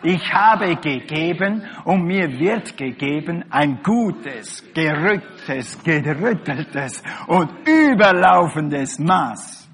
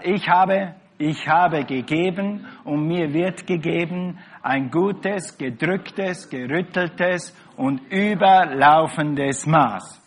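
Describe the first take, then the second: First: It is said forcefully, with strong conviction. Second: It is said plainly, without special conviction.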